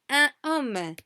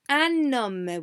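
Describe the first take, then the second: First: The N is dropped before the vowel. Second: The N is linked into the vowel. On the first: The speaker calls it wrong. "we do not say" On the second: The speaker calls it right. "We say un homme. We do pronounce the N"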